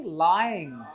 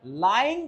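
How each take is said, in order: First: Lying said with a full gliding ai; drawn out ai in lying; correct diphthong. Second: Lying with a flat, clipped vowel; wrong vowel demo. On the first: Teacher models the right lying for students. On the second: Teacher contrasts a wrong take for students. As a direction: show the learner's mistake on lying. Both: Shown as a demonstration. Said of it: "आई को बोलो आई".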